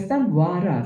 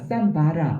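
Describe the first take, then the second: First: The middle consonant is a w sound. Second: The middle consonant is a b sound. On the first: "이음 발음이 나기도 하고" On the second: "비읍 발음이 나기도 하니까"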